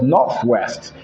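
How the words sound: The 'th' in north is a true 'th'. "instead of northwest"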